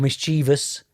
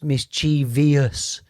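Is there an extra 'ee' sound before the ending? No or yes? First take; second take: no; yes. First: The word has no extra 'ee' sound inside. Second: The word has an extra 'ee' sound inside. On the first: The speaker calls it right. "it's pronounced mischievous" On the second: The speaker calls it wrong. "definitely not pronounced mischievous. There is no I there"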